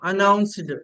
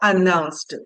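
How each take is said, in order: First: The ending is said with a d sound. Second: The ending is said with a t sound. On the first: The speaker calls it wrong. "డా ఉంటే డా చదివేస్తాం" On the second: The speaker calls it right. "ఆ డిని ట్ అలా చదవాలి"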